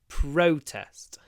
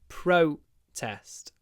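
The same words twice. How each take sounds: First: The stress is on the first syllable. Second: The same.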